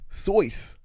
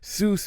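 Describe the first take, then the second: First: The vowel sounds like oy in voice. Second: The vowel sounds like oo in goose. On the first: The speaker calls it right. "It's actually supposed to be pronounced Soyce" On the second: The speaker calls it wrong. "isn't even how you pr- pronounce S E U S S"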